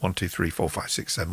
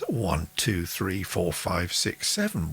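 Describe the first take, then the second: First: The count is spoken very fast. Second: The count is spoken fast.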